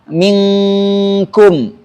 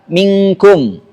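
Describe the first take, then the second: First: The n is hidden in a two-beat nasal hum. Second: The n is hidden in a one-beat nasal hum. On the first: The speaker calls it right. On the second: The speaker calls it wrong.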